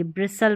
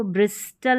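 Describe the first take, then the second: First: ब्रिसल with silent T; correct pronunciation. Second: ब्रिस्टल with the T sounded; wrong pronunciation. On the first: Teacher giving the right reading, ब्रिसल without T. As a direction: say ब्रिसल, s straight into l. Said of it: "ब्रिसल पढ़ेंगे". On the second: Teacher showing what not to read, ब्रिस्टल with spoken T. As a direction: say ब्रिस्टल with an audible t. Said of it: "ब्रिस्टल नहीं पढ़ेंगे". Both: Shown as a demonstration.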